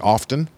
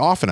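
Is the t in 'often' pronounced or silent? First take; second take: pronounced; silent. First: The t sound is pronounced in the middle. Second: The t sound is left silent in the middle. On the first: "I say often, and I use the T" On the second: "a lot of people say often"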